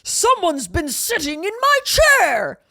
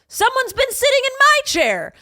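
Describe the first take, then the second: First: It is said in a deep, gruff voice. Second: It is said in a medium-pitched voice.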